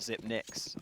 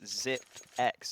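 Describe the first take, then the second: First: It is said like zip-nix, with an n. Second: It is said like zip-ex, with no n. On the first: The speaker calls it wrong. "and not Zip Nix" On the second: The speaker calls it right. "it's Zip X"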